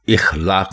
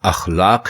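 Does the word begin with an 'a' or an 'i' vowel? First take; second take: i; a. First: The word begins with an 'i' vowel. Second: The word begins with an 'a' vowel. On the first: The speaker calls it wrong. "इखलाक नहीं है" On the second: The speaker calls it right. "दुरुस्त लफ्ज़ अखलाक है"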